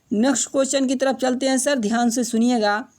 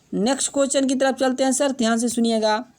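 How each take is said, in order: No difference in how they are said.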